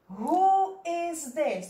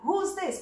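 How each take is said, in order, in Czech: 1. Slovo 'is' se říká celé. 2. Slovo 'is' se zkracuje na hlásku s. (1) "My jsme přečetli tohle" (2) "A tohle přečteme who's this"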